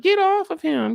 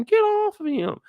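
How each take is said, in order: First: Much higher, frantic; yelling for him to get off; high panicked Ellie. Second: Much higher again, frantic; second frantic yell, same pitch; high panicked Ellie. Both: Retold or imitated. Repeated panic line.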